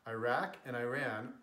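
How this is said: The names are said with an English pronunciation. "how those words are pronounced in English"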